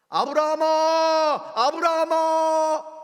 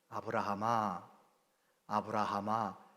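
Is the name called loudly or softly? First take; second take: loudly; softly. First: The name is called out loudly. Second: The name is called out softly.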